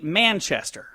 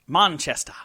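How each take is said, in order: First: It is said with an American accent. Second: It is said with an English accent.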